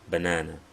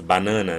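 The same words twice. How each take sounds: First: It is pronounced with English vowels. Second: It is pronounced with Portuguese vowels. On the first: "Em inglês fala banana" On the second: "Em português nós falamos banana"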